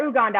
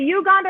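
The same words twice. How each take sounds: First: "Uganda" starting with an OO sound; pronounced OO-ganda. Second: "Uganda" starting with a YOU sound; pronounced YOU-ganda. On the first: Guest asking which is right, "Uganda" begun with OO. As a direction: say the second "Uganda" as oo-GAHN-da. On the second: Guest asking which is right, "Uganda" begun with YOU. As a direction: say the first "Uganda" as you-GAN-da. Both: Shown as a demonstration. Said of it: "is it Uganda or Uganda?".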